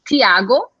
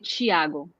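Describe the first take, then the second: First: The name starts with a plain T sound. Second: The name does not start with a plain T. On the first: This is how the Northeast says it. "in Northeast, they would say Tiago because there's a T, so you pronounce T" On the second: This is how the speaker's region says it. "But where I live, they would say Tiago"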